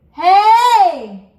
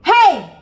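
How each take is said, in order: First: Loud, high call from the mask; big hey. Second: Loud, high bright call; big hey. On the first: Coach repeating the belt for students, loud call. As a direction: throw it forward and big. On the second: Vocal coach demonstrating a big hey, loud belt. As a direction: belt it right in front of your face. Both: Shown as a demonstration. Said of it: "let out a big hey right in front of your face".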